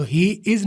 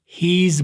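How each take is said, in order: First: "he is" said as two separate words; separated words. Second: "his" as one smooth linked word. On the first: Teacher showing the broken way to avoid. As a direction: split "he is" apart, slowly. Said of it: "نہ بولیں". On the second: Teacher showing the fluent linked form. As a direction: run "he is" together into "his". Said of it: "بولیں". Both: Shown as a demonstration.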